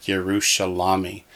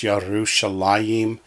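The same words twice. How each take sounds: First: "Yerushalami" ending in "la-mi"; as spelled. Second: "Yerushalayim" ending in "la-yim"; proper pronunciation. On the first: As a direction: say ye-ru-sha-LA-mi. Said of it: "it looks like Yerushalami". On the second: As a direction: say ye-ru-sha-LA-yim. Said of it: "is pronounced Yerushalayim". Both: Shown as a demonstration.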